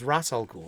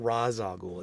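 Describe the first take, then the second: First: The first word sounds like 'Russ'. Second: The first word does not sound like 'Russ'. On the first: The speaker calls it right. "It's Ras, like, or Russ" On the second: The speaker calls it wrong. "not Raz Al Ghul"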